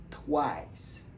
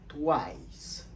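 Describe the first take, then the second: First: "Twice" repeated, tw-ice falling; English twice. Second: "Twice" as tw-ice; English twice. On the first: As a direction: say "Twice" again as the model. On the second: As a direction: model "Twice" clearly. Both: Shown as a demonstration. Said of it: "Comment nous prononcer".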